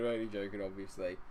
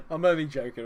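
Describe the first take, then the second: First: Softer, lower, settling the joke; quiet reassurance. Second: Higher and louder, playfully insistent; loud teasing protest. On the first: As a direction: say it gently so he knows. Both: Real, not acted. Teasing a viewer, then softening.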